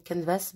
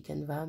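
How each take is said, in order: First: Canvas with the final s sounded; canvas pronunciation. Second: Canva with no final s, ending on the open a; Canva pronunciation. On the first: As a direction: say canvas, s pronounced at the end. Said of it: "à force d'entendre canvas". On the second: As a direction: say Canva, the s silent. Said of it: "Moi je dis Canva". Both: Shown as a demonstration.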